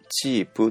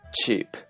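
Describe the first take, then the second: First: The word ends with a vowel sound. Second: The word ends with a consonant sound. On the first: "これ全部母音で終わっているんですが" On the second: "全部子音で終"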